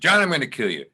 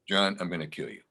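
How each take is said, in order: First: It is said with strong, heightened intensity. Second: It is said with toned-down, restrained intensity. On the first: The speaker calls it wrong. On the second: The speaker calls it right.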